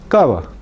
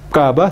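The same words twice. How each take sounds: First: The lips almost touch, letting air rub through. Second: The lips close fully, stopping the air. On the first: The speaker calls it right. "los dos labios nunca se juntan" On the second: The speaker calls it wrong. "No se dice cava"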